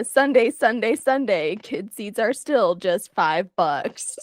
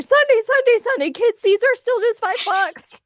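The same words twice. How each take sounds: First: Slow motion. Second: Loud high monster truck ad voice; announcer yell. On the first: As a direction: stretch every word in slow motion. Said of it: "what are you saying in slow motion". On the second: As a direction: belt it like a radio ad. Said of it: "as he flips through the air". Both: Acted.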